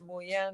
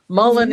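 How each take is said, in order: First: The word is pronounced the French way. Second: The word is pronounced the American way. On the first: "Mullen is the way the French say it" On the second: "Mullen is the way the Americans say it"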